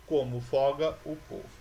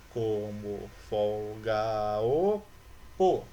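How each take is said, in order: First: Said in the usual way. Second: "Como folga o po" stretched out slowly, syllable by syllable; syllable counting. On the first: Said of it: "no segundo verso". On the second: Shown as a demonstration. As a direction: drag out each syllable of "Como folga o po", running the vowels together. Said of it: "lembra que as vogais, elas se unem". (separando devagar as sílabas de "Como folga o po")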